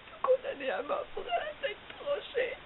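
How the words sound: It is said in a sad way.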